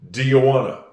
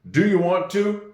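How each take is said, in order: First: 'Want to' is reduced to 'wanna'. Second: Both words 'want to' are pronounced fully. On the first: "You're going to hear" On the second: "people say this correctly"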